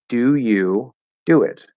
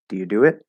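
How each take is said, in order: First: The first helping verb do is stressed. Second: The first helping verb do is unstressed. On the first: "You can choose to stress it if you have a special reason" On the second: "It's not stressed"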